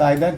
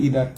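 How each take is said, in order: First: It starts with an 'eye' sound, British style. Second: It starts with an 'ee' sound, American style.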